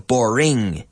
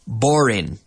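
First: The ending is a full 'ing' sound. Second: The ending is a plain 'in' sound. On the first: The speaker calls it right. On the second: The speaker calls it wrong. "it's not the same as in. This is the problem. I hear some people say it was very"

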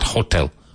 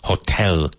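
First: The stress is on the first syllable. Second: The stress is on the second syllable. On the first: The speaker calls it wrong. "not hotel" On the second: The speaker calls it right. "Hotel with the emphasis on the second syllable"

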